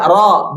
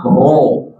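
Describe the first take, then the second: First: Ro with open a-like vowel; open mouth. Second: Ro with rounded o or u; pouted lips. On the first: Teacher asking mothers to watch, open-mouthed ro. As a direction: open wide on "ro". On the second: Teacher showing what it is not, pouted ro. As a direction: pucker on "ro". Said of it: "bukan ro". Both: Shown as a demonstration.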